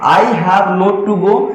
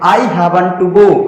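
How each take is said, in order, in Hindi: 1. 'Have not' दो पूरे शब्दों में बोला जाता है। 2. 'Have not' छोटा होकर एक शब्द में बोला जाता है। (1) "गलत नहीं है" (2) "शॉर्ट में बोलना पड़ता है"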